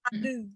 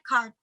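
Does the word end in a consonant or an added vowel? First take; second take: added vowel; consonant. First: An extra vowel is added after the final consonant. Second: The word ends cleanly on its final consonant.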